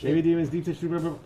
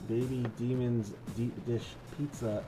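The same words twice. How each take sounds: First: The phrase is said quickly, like a tongue twister. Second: The phrase is said at a normal pace. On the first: The speaker calls it wrong. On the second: The speaker calls it right.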